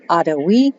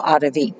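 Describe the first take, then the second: First: The middle consonant sounds like a w. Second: The middle consonant sounds like a v.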